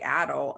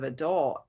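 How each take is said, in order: First: It is said the British way. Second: It is said the American way. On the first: This is the habit picked up while living abroad. "I still say adult" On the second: This is how the family at home says it. "instead of adult"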